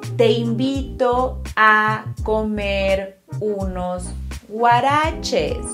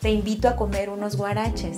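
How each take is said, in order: First: It is said more slowly. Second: It is said at normal speed.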